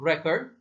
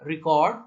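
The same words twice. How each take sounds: First: record as REK-erd, with a weak ending; record said as a noun; stress on first syllable. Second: record with a loud, full cord; record said as a verb; stress on second syllable. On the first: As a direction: hit the opening of record, reduce the rest. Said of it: "first पे stress दिया". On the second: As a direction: punch cord in record, ri-KORD. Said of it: "second पे stress करेंगे". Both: Shown as a demonstration.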